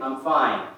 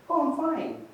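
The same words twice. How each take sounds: First: Curt, firm denial; terse brush-off hiding upset; clearly bothered. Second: Very high, upbeat reply; breezy high-pitched reassurance; genuinely fine. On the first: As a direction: say it louder, as if something is wrong. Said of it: "Something's clearly bothering them". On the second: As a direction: answer lightly, way up high. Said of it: "depending on the tone". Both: Shown as a demonstration.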